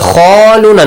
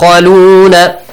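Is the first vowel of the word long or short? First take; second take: long; short. First: The vowel after kh is drawn out long. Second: The vowel after kh is kept short. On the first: The speaker calls it wrong. "Not khaluna, no. Because it doesn't have an alif" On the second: The speaker calls it right. "Yab khaluna"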